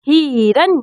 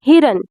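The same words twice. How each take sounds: First: The first vowel is drawn out long. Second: The first vowel is kept short. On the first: The speaker calls it wrong. "हिरन नहीं कहते हम लोग" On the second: The speaker calls it right. "ई की आवाज आ रही है और छोटी आ रही है, ज्यादा खींचा नहीं जा रहा है"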